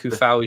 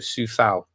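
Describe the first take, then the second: First: The name begins with a hard K sound. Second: The name begins with a soft S sound. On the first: "Seeing Kufau" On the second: "as you would pronounce a C in cell"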